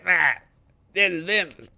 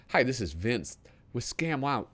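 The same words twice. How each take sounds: First: High, loud pitchman voice imitating Vince; Vince pitchman impression. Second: Said in the usual way. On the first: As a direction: ham up the TV salesman Vince. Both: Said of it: "Didn't he talk like this?".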